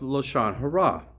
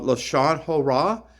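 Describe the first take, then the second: First: The second word is said without 'o' vowels. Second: The second word is said with 'o' vowels.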